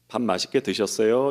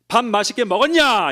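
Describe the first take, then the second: First: It is asked in a soft, gentle tone. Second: It is asked in a harsh, rude tone.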